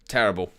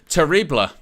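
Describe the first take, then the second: First: The word is pronounced the English way. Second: The word is pronounced the French way. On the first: "my pronunciation is uh, terrible" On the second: "Or what shall I say?"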